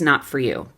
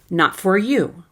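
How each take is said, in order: First: The word 'for' is reduced to a quick 'fur'. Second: The word 'for' is fully pronounced, sounding choppy. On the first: The speaker calls it right. "That's the way I'd say it" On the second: The speaker calls it wrong. "If you pronounce the word for, it sounds like this"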